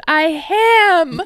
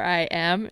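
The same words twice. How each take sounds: First: AM said as a long, loud "HAM"; garbled word blend. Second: Said in the usual way. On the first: Retold or imitated. Podcaster mocking his garbled reply, AM shouted as "ham". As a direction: mimic him blurting "I am" as "I haaam", high. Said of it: "And he combined them". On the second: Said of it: "I think he wanted to say".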